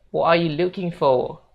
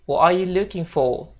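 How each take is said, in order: No difference in how they are said.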